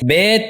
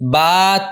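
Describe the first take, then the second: First: It is said the Urdu way, ending in 'e'. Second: It is said the Arabic way, ending in 'a'. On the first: The speaker calls it wrong. "Urdu तलफ़्फ़ुज़ से परहेज़ करें, यानी बे" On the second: The speaker calls it right. "अरबी लहजे में अदा करें ... बल्कि बा"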